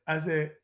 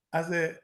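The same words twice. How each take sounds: The two takes are said the same way.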